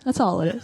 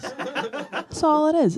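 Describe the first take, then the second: First: Quick chuckling aside; light laugh. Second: Laughing. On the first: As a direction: say it with a small laugh. First take, lighter laugh. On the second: Repeated, laughing, high. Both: Real, not acted.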